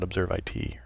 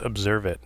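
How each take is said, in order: First: The ending is spelled out as two letters. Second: The ending is said as the word 'it'. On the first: The speaker calls it wrong. "not Observe I T" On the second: The speaker calls it right. "It's Observe It"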